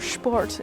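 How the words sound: The word has a German pronunciation.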